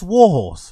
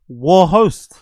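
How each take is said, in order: First: The second word ends with an s sound. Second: The second word ends with an st sound. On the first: The speaker calls it right. "You mean the war horse?" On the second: The speaker calls it wrong. "Can't you pronounce war horse?"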